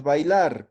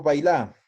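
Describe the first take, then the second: First: Said in the usual way. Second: "bailar" without final r, stressed bailÁ; imperative form. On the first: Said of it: "Tocoña es bailar". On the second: Shown as a demonstration. Teacher asking for the order form, "bailar" said as bailá. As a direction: end "bailar" on a stressed open á. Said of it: "cómo digo frase de orde".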